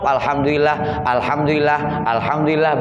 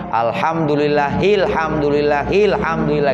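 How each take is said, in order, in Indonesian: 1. Setiap pengulangan berakhir dengan berhenti sebelum yang berikutnya. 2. Pengulangannya menyambung, dihubungkan dengan bunyi i. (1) "kalau diputus diwakaf" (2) "karena diwasol hanya harus dikasroh"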